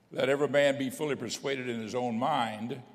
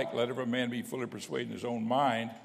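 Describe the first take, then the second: The two takes are said the same way.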